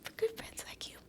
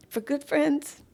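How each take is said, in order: First: For good friends like you whispered, breathless; whispered thanks. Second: Said in the usual way. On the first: Real, not acted. Thanking her loyal friend in a tearful whisper. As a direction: barely breathe it to your friend.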